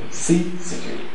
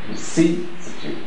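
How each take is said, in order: Both takes have the same delivery.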